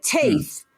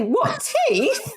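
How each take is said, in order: First: TEETH as a falling statement; wrong intonation. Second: "What, teeth" high and rising; questioning intonation. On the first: Retold or imitated. Co-host replays the failed joke, TEETH as a statement. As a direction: drop "Teeth" in with no question. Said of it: "don't use the right intonation". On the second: Shown as a demonstration. Co-host corrects partner's delivery, "What, teeth" as a high rising question. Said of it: "You didn't say".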